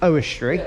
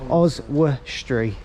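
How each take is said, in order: First: The first syllable sounds like 'oh' with no z. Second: The first syllable sounds like 'oz' with a z. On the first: The speaker calls it wrong. "Brandon thought was pronounced Owestry" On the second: The speaker calls it right. "Oz as in like short for Australia"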